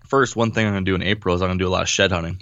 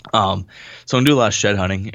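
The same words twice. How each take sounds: First: Talking with hiccups; hiccuping between words. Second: Said in the usual way. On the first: Real, not acted. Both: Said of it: "I got the hiccups over here".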